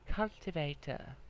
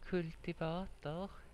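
First: The word has an English pronunciation. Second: The word has a Swedish pronunciation.

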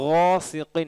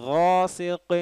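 The two takes are said the same way.

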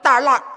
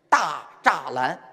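First: It is said in the clipped Beijing dialect form. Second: It is said in the standard Mandarin form.

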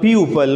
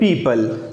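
First: The first vowel is an 'oo' sound. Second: The first vowel is an 'ee' sound. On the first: The speaker calls it wrong. "which is a wrong pronunciation" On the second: The speaker calls it right. "We should try to pronounce it correctly"

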